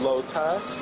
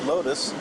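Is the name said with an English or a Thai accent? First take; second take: Thai; English. First: The name is said with a Thai pronunciation. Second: The name is said with an English pronunciation. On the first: This is how locals say the store's name. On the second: This is how foreigners say the store's name.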